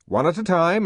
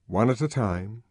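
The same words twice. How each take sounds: First: Spoken order. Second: Said in the usual way. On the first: A narrator's reading. Order then narration echo.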